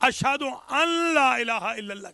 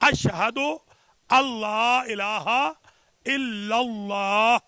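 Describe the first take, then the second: First: An n sound is pronounced before 'la'. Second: The n sound is dropped, merging into 'la'. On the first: The speaker calls it wrong. "ये गलत है" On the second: The speaker calls it right. "नून पढ़ने में हज़्फ हो जाती है"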